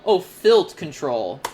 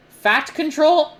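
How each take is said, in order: First: "filt control" said with a clear "filt", lower and slow; "filt control", corrected calmly and slowly; corrected word. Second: "fat control" said as "fat" with a puzzled high rise, slow; "fat control" misread, slow, puzzled; misread word. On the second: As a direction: read "fat control" slowly as a confused question, higher. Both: Real, not acted.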